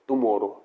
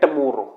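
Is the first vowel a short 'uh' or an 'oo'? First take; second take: oo; uh. First: The first vowel is an 'oo' sound. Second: The first vowel is a short 'uh'. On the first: The speaker calls it wrong. "Not टुमोरो" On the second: The speaker calls it right. "ये है टमोरो"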